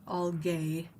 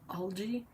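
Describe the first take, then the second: First: The g is hard and the word ends like 'gay'. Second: The g is soft, the usual English pronunciation. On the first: This is how the spelling suggests it is said. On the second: This is how people are usually heard saying it. "I think I've always heard it as algae"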